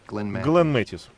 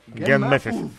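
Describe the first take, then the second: First: The name is pronounced clearly, with every sound intact. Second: The name is pronounced with sounds dropped and replaced.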